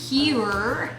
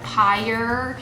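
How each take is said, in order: First: It is said like the word 'pure'. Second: It is said like the word 'pyre'. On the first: The speaker calls it right. "You guys told me how to say this correctly" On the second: The speaker calls it wrong. "I'd always called it Pyre"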